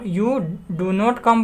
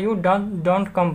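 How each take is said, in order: First: Do not is said as two full words. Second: Do not is joined into one short word.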